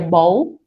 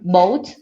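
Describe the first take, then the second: First: The first vowel and the final t are dropped. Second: The first vowel is dropped, leaving one syllable. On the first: "or you may just hear bow" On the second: "you may hear boat"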